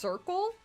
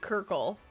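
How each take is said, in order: First: The word begins with an s sound. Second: The word begins with a k sound. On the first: The speaker calls it right. "it's pronounced circle" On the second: The speaker calls it wrong. "I like Kirkle"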